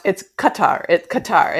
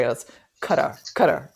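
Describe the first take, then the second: First: Qatar said as kuh-TAR; pronunciation demo. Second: Qatar said as CUT-er; linguist's pronunciation. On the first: Podcast guest showing how Qatar is pronounced, as kuh-TAR. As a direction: stress the second syllable of Qatar, kuh-TAR. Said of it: "how to pronounce". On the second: Guest passing on the linguist's answer, Qatar said as CUT-er. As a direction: stress the first syllable of Qatar, like "cutter". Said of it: "How do you pronounce this name". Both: Shown as a demonstration.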